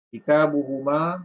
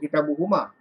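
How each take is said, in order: First: The final vowel is held long. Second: The final vowel is cut short. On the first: The speaker calls it right. "panjangkan sikit" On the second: The speaker calls it wrong. "jangan sebut kitabuhuma"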